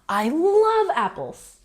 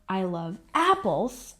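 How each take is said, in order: First: The stress falls on the word love. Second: The stress falls on the word apples. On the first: The feeling is stronger than someone else's. "I'm stressing the feeling" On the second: Attention is drawn to the thing that is loved. "I put the stress on the apples"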